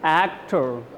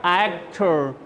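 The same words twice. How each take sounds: Both takes have the same delivery.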